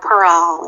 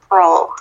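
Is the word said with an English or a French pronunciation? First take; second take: French; English. First: It is said with a put-on French pronunciation. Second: It is said with a plain English pronunciation.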